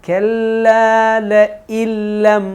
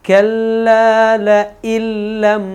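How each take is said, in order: No difference in how they are said.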